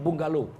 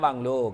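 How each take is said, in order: First: The word is said in full, three syllables. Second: The word is shortened to two syllables. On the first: This is the standard form of the word. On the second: This is the everyday colloquial form of the word.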